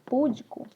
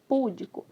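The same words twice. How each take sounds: First: The stress is on the second syllable. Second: The stress is on the first syllable. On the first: The speaker calls it right. "Ao invés de pronunciar" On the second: The speaker calls it wrong. "coloca o acento errado aqui"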